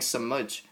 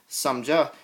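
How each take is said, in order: First: The word ends on a consonant, no vowel. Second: The word ends with an added ah vowel. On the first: The speaker calls it right. "there's no ah sound at the end" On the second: The speaker calls it wrong. "instead of saying uh, samja"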